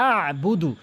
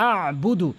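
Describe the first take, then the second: Both takes have the same delivery.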